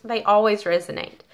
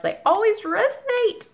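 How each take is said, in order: First: Said in the usual way. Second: Much higher, sing-song gush; delighted gushing. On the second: Real, not acted. To viewers about advice cards, high delighted gush. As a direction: let they always resonate leap up high with delight.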